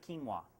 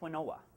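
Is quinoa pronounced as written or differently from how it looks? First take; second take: differently; as written. First: It is pronounced differently from how it looks. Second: It is pronounced the way it looks written. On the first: The speaker calls it right. "it's never pronounced the way it's spelled" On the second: The speaker calls it wrong. "We all want to say quinoa"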